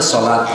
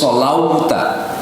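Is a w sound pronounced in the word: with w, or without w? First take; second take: without w; with w. First: The word is said without a w sound. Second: The word is said with a w sound. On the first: The speaker calls it right. "Tapi dibacanya sholat" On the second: The speaker calls it wrong. "yang nggak paham akan baca aqimus sholauta karena ada waw di situ"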